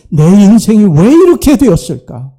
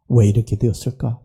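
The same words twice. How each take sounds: First: Louder, higher cry of why; anguished question. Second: Softer, lower musing to himself; quiet self-questioning. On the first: Prodigal son crying out over his ruined life, louder. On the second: Prodigal son asking himself why, quietly. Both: Acted.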